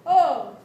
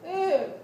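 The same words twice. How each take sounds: First: Oh said as a round open O; O vowel. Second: Ooh said with a close rounded ooh; ooh vowel. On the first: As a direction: say Oh as a full O vowel. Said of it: "an O sounds like this". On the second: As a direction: say Ooh with the tongue high. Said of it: "An ooh sounds like this". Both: Shown as a demonstration.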